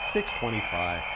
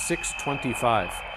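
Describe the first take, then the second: First: The number is said with a cocky, confident attitude. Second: The number is said flatly, without any attitude. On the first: The speaker calls it right. "You have to have an attitude about it. You say it this way" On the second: The speaker calls it wrong. "you don't say it like this"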